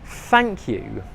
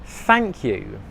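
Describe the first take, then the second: Both takes have the same delivery.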